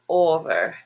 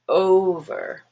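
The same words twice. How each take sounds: First: The first vowel is a plain single vowel. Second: The first vowel glides as a diphthong. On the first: The speaker calls it wrong. "It's not over" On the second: The speaker calls it right. "diphthong O"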